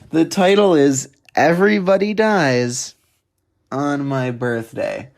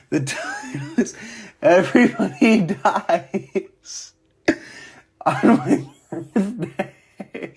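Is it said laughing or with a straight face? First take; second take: straight face; laughing. First: It is said with a straight face. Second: It is said while laughing.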